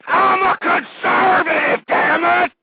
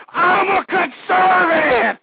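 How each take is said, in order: First: "I'm a conservative" screamed high, loud and slow; screaming. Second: "I'm a conservative" screamed high, loud and slow; screaming again. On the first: Radio host screams his creed at listeners, slow full shout. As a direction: bellow it, breaking with passion. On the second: Radio host repeats his creed to listeners, slow full shout. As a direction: hold the scream out to the last syllable. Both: Real, not acted. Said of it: "I don't mean to be screaming out my head".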